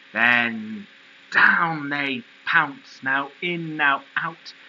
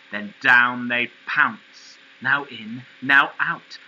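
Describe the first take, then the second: No difference in how they are said.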